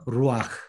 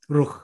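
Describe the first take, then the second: First: An a vowel comes before the final h sound. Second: No vowel comes before the final h sound. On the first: The speaker calls it right. "이 후음 바로 앞에 아를 집어넣어 주면 발음하기가 굉장히 부드럽습니다" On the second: The speaker calls it wrong. "아가 없이 루흐 이렇게 하면 굉장히 힘이 들어요"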